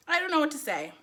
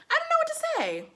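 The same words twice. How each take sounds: First: Said in the usual way. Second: Very high-pitched helplessness; squealed bewilderment; baffled. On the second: Real, not acted. At a loss, first take.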